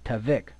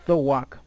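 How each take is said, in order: First: The middle consonant is a v sound. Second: The middle consonant is a w sound. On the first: The speaker calls it wrong. "here they have tavek" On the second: The speaker calls it right. "the actual Hebrew is thawak"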